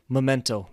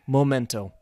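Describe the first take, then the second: First: The first syllable sounds like 'meh'. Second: The first syllable sounds like 'moh'. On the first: The speaker calls it right. "So you should say memento, like the correct word" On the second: The speaker calls it wrong. "I pronounce it incorrectly. I say momento"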